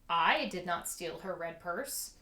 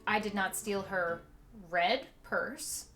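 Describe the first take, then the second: First: The stress falls on the word I. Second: The stress falls on the word red. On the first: Someone else stole the purse. "implies that somebody else did" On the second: A purse of another colour was stolen. "implies that maybe I stole her blue one"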